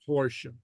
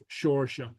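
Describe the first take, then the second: First: The word begins with an h sound. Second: The word begins with an s sound.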